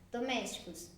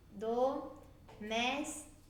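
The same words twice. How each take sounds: First: Said in the usual way. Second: "domésticos" split slowly into do, més, ti, cos; syllable by syllable. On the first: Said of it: "por pedacinhos, por partes a palavra". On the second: Shown as a demonstration. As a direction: say "domésticos" in four drawn-out pieces with clear breaks. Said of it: "separar em sílabas é separar".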